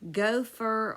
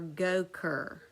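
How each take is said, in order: First: The middle consonant is an F sound. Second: The middle consonant is a K sound.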